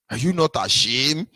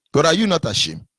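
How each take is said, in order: First: "Are you not ashamed?" lifting at the end; incredulous rising rebuke; rising question. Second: "you" punched, falling end; scolding with weight on "you"; stress on you. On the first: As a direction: ask it with a rising scold. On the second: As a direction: hit "you" in "are you not ashamed". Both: Shown as a demonstration. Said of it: "repeated rhetorical question".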